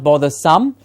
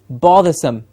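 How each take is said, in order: First: The last syllable has a full vowel. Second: The last syllable is reduced to sm. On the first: The speaker calls it wrong. "And not" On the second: The speaker calls it right. "so it becomes sm"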